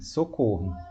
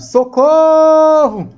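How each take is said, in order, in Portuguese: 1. A palavra é dita com calma, sem emoção forte. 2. A palavra é dita com emoção forte, quase gritada. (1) "Se só tivesse a palavra socorro e um ponto final, eu leria assim" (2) "como se estivesse gritando mesmo"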